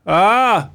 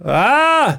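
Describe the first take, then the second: First: Short, raised put-on moan; mild imitated cry of distress; small mock scream. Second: High-pitched put-on cry; much higher mock wail of distress; escalating mock scream. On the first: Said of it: "Antagligen har man börjat så här lite". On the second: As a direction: push the imitated scream higher. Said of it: "Så gör det ännu mer".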